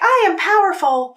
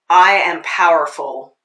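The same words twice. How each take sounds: First: It sounds light and up in the head. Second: It sounds full and grounded in the body.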